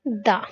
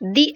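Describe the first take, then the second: First: The word has a short 'uh' vowel. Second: The word has a long 'ee' vowel. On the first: The next word starts with a consonant. "यहाँ आएगा दा" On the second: The next word starts with a vowel. "यहाँ पर हम इसका उच्चारण दी लाएंगे"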